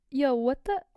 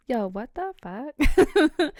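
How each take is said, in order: First: Said in the usual way. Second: Slow, louder drawn-out "yo, what the fuck"; stunned disbelief. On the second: Acted. Victim stunned when the Taco Bell guy shows up, slow and loud. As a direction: stretch every word out in shock, louder.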